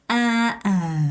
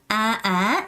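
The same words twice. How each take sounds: First: The pitch goes down on the vowel. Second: The pitch goes up on the vowel. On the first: "아아 하고 음이 내려가야 되는 거예요" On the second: "아아 이렇게 올라가는 거예요"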